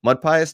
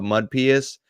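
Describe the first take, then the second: First: "Pious" said PIE-us, higher and questioning; imitating an unsure guess, "Pious" as PIE-us; right name pronunciation. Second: "Pious" said PEE-us; imitating someone misreading "Pious" as PEE-us; wrong name pronunciation. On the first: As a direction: say "Pious" with a long EYE first. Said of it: "Yeah, the second one". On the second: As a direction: say "Pious" with a long EE first. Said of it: "Did I say that right?".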